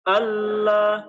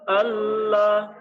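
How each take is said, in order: The two takes are said the same way.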